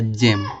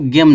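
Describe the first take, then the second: First: The word begins with a soft j sound. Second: The word begins with a hard g sound. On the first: The speaker calls it right. "जा निकला" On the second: The speaker calls it wrong. "यहाँ पे इसको गेम नहीं पढ़ेंगे"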